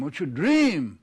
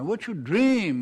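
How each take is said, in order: First: Said in the usual way. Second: Slow, weighty "What's your dream?" with dream held long; stress on dream. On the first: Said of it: "repeat of the question". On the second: Acted. Edith pressing Kate for her real dream, slow and weighty. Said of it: "repeats the question with weight".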